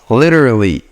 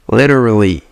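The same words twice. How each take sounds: No difference in how they are said.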